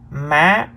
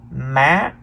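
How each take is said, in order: Both takes have the same delivery.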